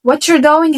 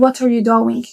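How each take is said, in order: First: "what you're doing" run together as "whatcher doing"; accented linked pronunciation. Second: "what are you doing" with each word sounded separately; unlinked pronunciation. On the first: Teacher showing learners the accented form, "what you're doing" slurred into "whatcher doing". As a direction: link "what you're" into one casual "whatcher". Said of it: "لما أتكلم عن أكسنت فأنا بتكلم عن لهجة". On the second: Teacher showing learners the plain form, "what are you doing" fully pronounced. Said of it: "بدل ما هتقول what you're doing هتقول". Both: Shown as a demonstration.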